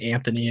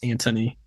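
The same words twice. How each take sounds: First: The middle sound is a soft 'th'. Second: The middle sound is a hard 't'. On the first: The speaker calls it wrong. "they say Anthony" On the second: The speaker calls it right. "but without the H. It's Anthony"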